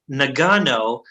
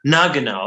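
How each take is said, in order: First: Nagano stressed on the middle syllable, na-GAH-no; mistaken pronunciation. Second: Nagano stressed on the first syllable, NAH-guh-no; corrected pronunciation. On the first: Real, not acted. Host reading an Olympic city, Nagano with middle stress. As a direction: say Nagano as nuh-GAH-noh. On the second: Shown as a demonstration. Host trying the correction, Nagano with first-syllable stress. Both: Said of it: "I think it's pronounced Nagano".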